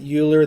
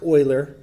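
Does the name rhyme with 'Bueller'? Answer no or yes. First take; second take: yes; no. First: The name rhymes with Bueller. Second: The name does not rhyme with Bueller. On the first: The speaker calls it wrong. "Some people pronounce it Euler. That's sort of one of the ways that I grew up. It sounded a lot like Bueller" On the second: The speaker calls it right. "but it's pronounced Euler"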